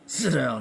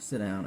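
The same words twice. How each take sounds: First: It is said in a menacing, violent voice. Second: It is said shyly and awkwardly.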